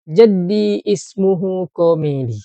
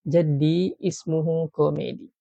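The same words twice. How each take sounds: First: Jaddi ismuhu Komedi said louder, stress on Jaddi; model phrase. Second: Said in the usual way. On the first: Shown as a demonstration.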